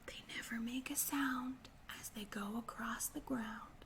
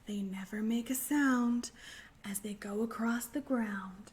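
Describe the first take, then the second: First: It is said very quietly. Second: It is said at a normal volume.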